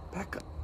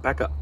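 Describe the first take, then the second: First: Whispered. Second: Said in the usual way. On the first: Real, not acted. Shooing pet off camera spot.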